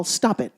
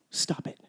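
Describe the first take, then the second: First: Said in the usual way. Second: "Stop it." whispered, breath only, no voice; hushed whispered repeat of "Stop it.". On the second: Shown as a demonstration. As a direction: drop to a bare whisper on "Stop it.".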